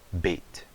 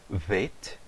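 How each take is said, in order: First: It begins with a hard, closed b sound. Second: It begins with a soft, hissing v sound. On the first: "com o dagesh" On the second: "sem o dagesh"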